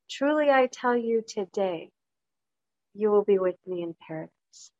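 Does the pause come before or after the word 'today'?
after. The pause comes after the word 'today'. The telling happens today; paradise comes at another time. "How important is where you put the pause?"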